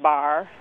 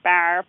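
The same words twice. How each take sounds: First: The vowel is pronounced far back. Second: The vowel is pronounced very far forward. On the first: "Rather than bar" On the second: "It's not radically fronted. It's not like bar"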